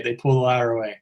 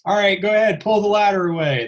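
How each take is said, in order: First: Said in the usual way. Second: Higher-pitched imitation of a crew command; relaying a set command in a raised pitch. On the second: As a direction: call out an order like film crew. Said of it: "I start hearing all the commands".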